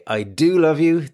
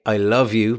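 First: "do" pushed up high and leaned on; emphatic "I do love you" with a high stressed "do". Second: Said in the usual way. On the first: Shown as a demonstration. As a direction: hit the word "do" hard for emphasis. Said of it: "it's more emphatic". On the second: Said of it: "then it's more emphatic".

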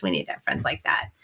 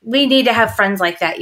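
First: A soft unvoiced whisper of the same line; hushed echo, breath only. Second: Said in the usual way. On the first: Real, not acted. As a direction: drop to a secret whisper for emphasis. Whispered repeat of her line.

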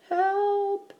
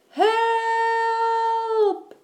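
First: High, thin little plea; small whispered cry. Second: Very high, long-held cry; shout for help. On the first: Eddie hides in the basket, whispering for help. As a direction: squeak it high without raising volume. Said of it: "whispered Eddie". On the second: Eddie trapped by the bear, shouting for rescue. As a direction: wail it out, stretched long. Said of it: "shouted Eddie". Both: A narrator's reading.

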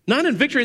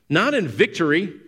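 First: "Not in victory" pushed much higher, hammering the point; emphatic repeat. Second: Said in the usual way. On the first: Shown as a demonstration. Preacher repeating his point to the church, higher and emphatic. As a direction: hit "Not in victory" hard the second time.

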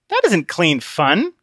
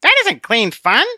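First: Slow flat repeat of Conscience. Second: High, slow, prim little voice; a small scolding voice on his shoulder; tiny Conscience. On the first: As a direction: echo it back dully. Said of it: "like an echo". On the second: Conscience correcting Obstinate, high and prim. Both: Acted.

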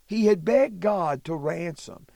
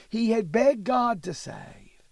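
First: Said in the usual way. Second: Whisper. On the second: Shown as a demonstration. Teacher repeats plea, first whispered.

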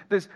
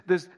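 Both takes have the same delivery.

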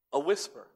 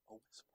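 First: Said in the usual way. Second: Barely voiced A whisper, almost silent. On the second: Shown as a demonstration. Preacher demonstrating a whisper to the congregation, barely audible. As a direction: breathe the words out without voice.

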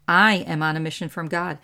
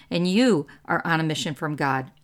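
First: "I" pushed out first and strongest; stress on I. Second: "you" pushed out first and strongest; stress on you. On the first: Preacher pointing to herself, stress on "I". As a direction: lean on "I" in "I am on a mission". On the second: Preacher turning it on the listeners, stress on "you". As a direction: lean on "you" in "you are on a mission". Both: Shown as a demonstration. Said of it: "So I'm telling you".

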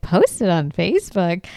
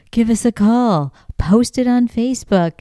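First: Disbelieving question with swooping stresses; incredulous echo. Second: Higher, sing-out sign slogan; sign read-out. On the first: Host reacts to the Bigfoot sign, mock incredulous. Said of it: "I was like". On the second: Reading little Bigfoot signs to listeners, higher announcing tone. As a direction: call it out like a roadside appeal. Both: Retold or imitated.

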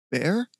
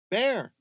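First: Higher, uncertain rising question; faltering. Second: High, searching shout; calling out. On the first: Michael frozen in the dark, faltering question. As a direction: call the name unsure, with dread. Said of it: "His voice faltered". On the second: Michael searching for Bear in the forest, calling out. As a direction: shout the name into the dark. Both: Acted.

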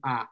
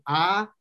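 First: "ah" cut short; short vowel. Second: "ah" held long; long vowel. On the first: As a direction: say "ah" as a brief short syllable. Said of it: "one sound made longer or shorter". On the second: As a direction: draw out "ah" as a long syllable. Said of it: "hearing the difference between". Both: Shown as a demonstration.

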